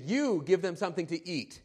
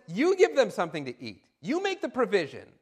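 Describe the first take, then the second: First: You said with the main weight, falling after; stress on you. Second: You give them something to eat with the weight on give; challenging command. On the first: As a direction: put the push on You in You give them something to eat. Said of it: "what did Jesus really expect". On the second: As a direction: give stressed, falling firmly. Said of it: "he challenges them". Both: Acted.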